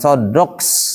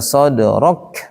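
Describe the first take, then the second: First: The final k ends with an s-like hiss. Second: The final k ends cleanly without any hiss. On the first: The speaker calls it wrong. "bukan sodroks" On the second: The speaker calls it right. "Laka sodrok"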